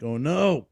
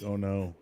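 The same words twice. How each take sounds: First: Higher mock dread, drawn out; rising comic alarm. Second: Soft, held-in muttered dread; suppressed dread. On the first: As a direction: feel the laugh about to escape. I feel it coming out. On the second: Retold or imitated. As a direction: keep it down, holding back a laugh. Trying to hold laughter in.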